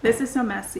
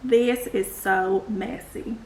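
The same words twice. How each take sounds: First: It is said in the speaker's plain accent. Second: It is said in a Southern US accent.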